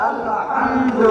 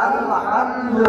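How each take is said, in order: No difference in how they are said.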